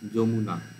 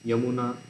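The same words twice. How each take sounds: First: The word begins with a 'j' sound. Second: The word begins with a 'y' sound. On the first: This is how it is said in Bengali. "জ বর্গীর জ উচ্চারণ হচ্ছে" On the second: This is how it is said in Hindi. "যদি এরকম বলে না হিন্দিতে"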